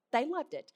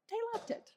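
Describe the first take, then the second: First: Said in the usual way. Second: They loved it, sung up high and soft; a hushed, high-pitched teaser before the plain repeat; high soft reveal. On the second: Real, not acted. Telling the friend the buyers loved the house, high and soft. Teasing reveal of happy news.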